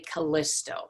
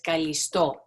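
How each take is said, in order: First: The name is pronounced with English sounds. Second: The name is pronounced with Greek sounds. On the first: "In English, sometimes people say Callisto" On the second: "I'll try and say both the English and the Greek uh, pronunciation"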